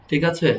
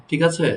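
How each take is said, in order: The two takes are said the same way.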